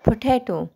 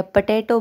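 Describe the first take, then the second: First: पोटैटो with aspirated P and T, in one smooth flow; crisp aspirated पोटैटो, said as one word; correct pronunciation. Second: पोटैटो said with a weak, unaspirated first syllable; a careless पोटैटो, first syllable softened to पə; wrong pronunciation. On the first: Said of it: "आपने एक flow में बोलना है". (पोटैटो सही उच्चारण में, एक flow में) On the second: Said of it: "नहीं, पोटैटो". (पोटैटो का गलत उच्चारण, पहला अक्षर ढीला) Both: Shown as a demonstration.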